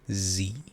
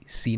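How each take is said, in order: First: The word begins with a voiced z sound. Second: The word begins with a voiceless s sound. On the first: The speaker calls it right. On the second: The speaker calls it wrong. "سی نه ها"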